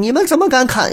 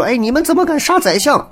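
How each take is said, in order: First: Much higher, outraged demand that falls at the end; indignant challenge. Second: Much higher, outraged question; shrill rising protest at the soldiers; indignant challenge. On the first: The chancellor confronting the soldiers, in a high outraged voice. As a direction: cry out in shock at the soldiers. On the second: The censor confronting the soldiers, in a high outraged voice. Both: Retold or imitated.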